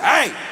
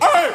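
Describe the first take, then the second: First: The voice stays steady and controlled. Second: The voice cracks in exasperation.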